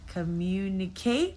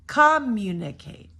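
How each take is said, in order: First: The stress is on the last syllable. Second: The stress is on the first syllable. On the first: "Or the last syllable" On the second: "if you were to say it wrong, ... I'm going to do it with the first syllable"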